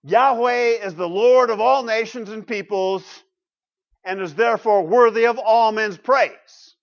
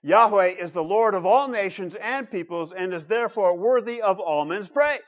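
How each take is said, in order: First: Loud, measured reading aloud; deliberate, emphatic reading of a verse; slow reading. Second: Measured repeat reading; deliberate reading aloud, a little less forceful; slow reading. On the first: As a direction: read it out slowly and firmly, raised voice. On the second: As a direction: read the verse out steadily for listeners. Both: Real, not acted. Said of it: "I'll read it slowly".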